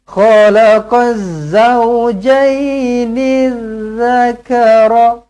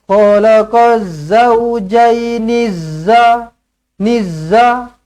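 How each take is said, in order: First: The last word starts with a soft dh sound. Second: The last word starts with a hard z sound. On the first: The speaker calls it right. "zal dia lembut sikit. Zal di hujung lidah" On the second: The speaker calls it wrong. "salah eh. Zai dia kasar sikit"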